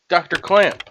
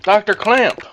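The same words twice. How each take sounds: First: Raised-pitch call to the doctor. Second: Higher, insistent call; louder calling out. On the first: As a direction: call out to find someone. Calling out for the doctor. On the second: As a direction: call harder to get the doctor's attention. Calling the doctor a second time. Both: Acted.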